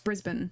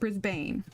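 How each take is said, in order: First: The second syllable has a weak, reduced vowel. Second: The second syllable has a full, hard 'a' vowel. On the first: The speaker calls it right. "it's not a hard A, it's Brisbane" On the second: The speaker calls it wrong. "it's not Brisbane"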